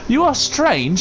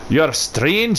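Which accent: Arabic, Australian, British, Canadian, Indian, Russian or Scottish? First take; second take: British; Scottish. First: It is spoken in a British accent. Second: It is spoken in a Scottish accent. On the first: "Could have the British tree" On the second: "Could have like the Scottish tree"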